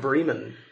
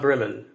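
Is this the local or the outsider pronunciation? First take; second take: local; outsider. First: It is said in the local way. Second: It is said in the outsider way. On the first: The speaker calls it right. "I come from a town called Bremen" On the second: The speaker calls it wrong. "Not Bremen"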